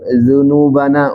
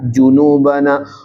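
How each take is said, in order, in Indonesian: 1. Diawali dengan bunyi 'dh' yang lembut. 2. Diawali dengan bunyi 'j' yang keras. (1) "yang betul dzunubana, ujung lidah ujung gigi" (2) "yang salah junubana"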